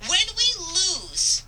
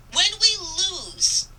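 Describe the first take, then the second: No difference in how they are said.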